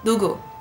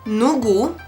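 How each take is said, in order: First: The word begins with a stronger d-like sound. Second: The word begins with a clear n sound. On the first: The speaker calls it right. "it is more of 누구" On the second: The speaker calls it wrong. "it is not 누구"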